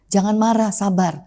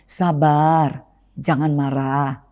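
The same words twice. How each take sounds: First: Said in the usual way. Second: Soothing advice. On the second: Retold or imitated. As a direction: talk an angry friend down gently. Calming someone who is angry.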